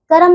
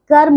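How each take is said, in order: First: कर्म said as "karam"; wrong extra vowel. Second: कर्म said as "karm"; correct consonant cluster. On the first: Teacher showing pupils the error, कर्म as two syllables. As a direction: put a vowel between r and m in कर्म. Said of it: "कर्म नहीं". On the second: Teacher correcting pupils, कर्म as one syllable. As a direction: join r and m in कर्म. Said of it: "कर्म होता है". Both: Shown as a demonstration.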